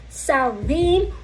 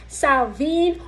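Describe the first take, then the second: The two takes are said the same way.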